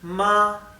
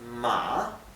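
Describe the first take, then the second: First: The pitch stays high and level. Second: The pitch dips down and then rises. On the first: It means mother. "es un tono más alto y, y que no tiene altibajos" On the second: It means horse. "la A baja y sube la pronunciación"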